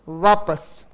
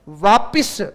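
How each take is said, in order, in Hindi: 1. दूसरा स्वर 'a' की ध्वनि है। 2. दूसरा स्वर 'i' की ध्वनि है। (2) "वापिस नहीं"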